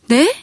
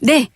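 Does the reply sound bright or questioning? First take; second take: questioning; bright. First: A questioning yes with a doubtful tone. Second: A bright, clear, confident yes. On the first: It implies reluctance or refusal. The speaker calls it wrong. "네? 라고" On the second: I understand and will do it. The speaker calls it right. "밝고 명쾌하게 목소리로"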